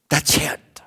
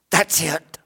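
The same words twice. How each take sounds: First: Said in the usual way. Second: Whispered repeat of That's it, unvoiced. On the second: Shown as a demonstration. Preacher hushing the congregation, whispered. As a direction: drop to a breathy whisper on That's it.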